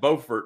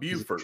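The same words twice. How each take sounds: First: It is said with the North Carolina pronunciation. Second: It is said with the South Carolina pronunciation. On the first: This is how the North Carolina town is named. The speaker calls it right. "It is Beaufort, North Carolina" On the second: This is how the South Carolina town is named. The speaker calls it wrong. "for all you South Carolinians, y'all are saying it wrong. It's not Beaufort"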